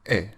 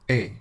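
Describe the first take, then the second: First: The vowel is like the one in fed. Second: The vowel is like the one in pay. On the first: "should be pronounced like the E sound in the English word fed" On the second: "like the vowel sound in the English word pay, but without the Y sound"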